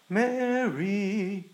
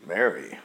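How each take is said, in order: First: Drawn-out tender Mary; sweet lingering name; sweeter. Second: Low, dismissive Mary; cold disdainful name. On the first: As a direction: say her name like it delights you. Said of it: "a little more sweeter". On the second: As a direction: say the name with contempt. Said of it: "like with disdain". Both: Shown as a demonstration.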